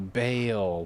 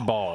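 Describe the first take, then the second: First: The name is said with an 'ay' vowel. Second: The name is said with an 'aw' vowel. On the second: "She says Ball"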